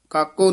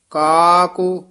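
First: ਕਾਕੂ cut short without the long vowel; short, hurried vowel. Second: ਕਾਕੂ with a long, drawn-out first vowel. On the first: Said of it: "ਕਾਕੂ ਨਹੀਂ ਕਹਿਣਾ ਹੈ". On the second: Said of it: "ਇਹ ਲੰਮੀ ਆਵਾਜ਼ ਦੇ ਨਾਲ ਕਰਨਾ ਹੈ". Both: Shown as a demonstration.

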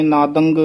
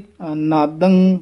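First: ਨਾਦੰਗ with an added g at the end; ਨਾਦੰਗ ending in a hard g; wrong pronunciation. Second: ਨਾਦੰ with a clean nasal end; ਨਾਦੰ, no g sound; correct pronunciation. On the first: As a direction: show the error ਨਾਦੰਗ, ng plus g. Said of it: "ਗੱਗੇ ਨਹੀਂ ਲਾ ਦੇਣੇ". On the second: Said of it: "ਇਸ ਤਰ੍ਹਾਂ ਉਚਾਰਨ ਕਰਨਾ". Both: Shown as a demonstration.

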